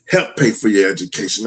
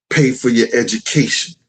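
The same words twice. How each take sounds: First: "Help" stressed at the start as a correction. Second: Said in the usual way. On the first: Shown as a demonstration. Father correcting his claim about her education, stress on "Help". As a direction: lead with a firm "Help", then let the rest fall back. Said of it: "let me put it that way".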